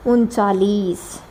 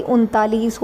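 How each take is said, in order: First: उनतालीस said as "उनचालीस", low and slow; local pronunciation. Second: उनतालीस with a clear त, "उन-ता-लीस"; standard pronunciation. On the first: Retold or imitated. Teacher mimics the local way of saying thirty-nine. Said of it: "हम क्या बोलते हैं". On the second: Shown as a demonstration. Teacher gives students the correct thirty-nine. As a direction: say उनतालीस with a crisp t sound. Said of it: "ये भाई उनतालीस होता है".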